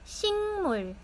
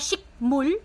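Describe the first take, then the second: First: The first syllable ends in an ng sound. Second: The first syllable ends in a k sound. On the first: The speaker calls it right. "Nag-iiba po yung sound niya" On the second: The speaker calls it wrong. "imbis na shikmul"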